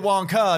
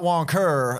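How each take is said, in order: First: The word ends in a plain vowel without R. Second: The word ends with a hard R sound. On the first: The speaker calls it right. "You could say Wonka" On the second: The speaker calls it wrong. "Wonker with the hard R"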